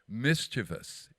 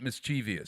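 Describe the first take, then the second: First: It has no extra 'ee' sound before the ending. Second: It has an extra 'ee' sound before the ending. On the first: The speaker calls it right. "mischievous is the word" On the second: The speaker calls it wrong. "there is no no V I U S in mischievous. It is not mischievous"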